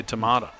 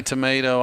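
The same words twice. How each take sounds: First: Tomato with an open "ah" in the middle; tomato with "mah". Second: Tomato with a long "ay" in the middle; tomato with "may". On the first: Announcer joking about rival pronunciations, tomato said as "tuh-MAH-toh". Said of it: "I say tomato". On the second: Announcer joking about rival pronunciations, tomato said as "tuh-MAY-toh". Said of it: "You say tomato". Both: Shown as a demonstration.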